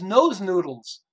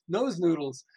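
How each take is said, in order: First: Drawn out, louder, savoring each word; slow proud product name reveal; slow showcased name. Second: Said in the usual way. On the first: Retold or imitated. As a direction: present the name like a punchline.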